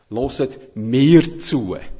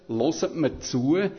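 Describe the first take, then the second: First: The stress falls on the word mir. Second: The stress falls on the word hört. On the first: Listen to this person rather than the others. "Betonung auf mir" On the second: The point is to really listen. "Jetzt kann man Betonung aufs Hören tun, aufs Hören"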